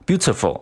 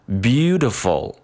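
First: Each syllable is clipped and evenly timed. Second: The first syllable is long and the rest quicker. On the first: The speaker calls it wrong. "就非常的choppy，就像切水果一样" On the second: The speaker calls it right. "那读出来就应该感觉是beautiful beautiful"

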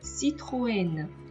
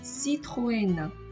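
First: The o and e are sounded as separate vowels. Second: The same.

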